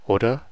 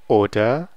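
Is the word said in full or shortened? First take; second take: shortened; full. First: The word is said quickly and shortened. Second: Both syllables are said fully and clearly.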